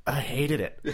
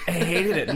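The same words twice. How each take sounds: First: Said in the usual way. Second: Laughing loud. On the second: Real, not acted. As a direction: laugh through it, louder. Repeats complaint, second time laughing.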